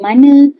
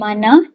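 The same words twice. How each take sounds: First: The word ends in a weak schwa vowel. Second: The word ends in a full open 'a' vowel. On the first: This is the Perak river valley dialect form. "ditukar kepada" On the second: This is the standard form. "perkataan mana"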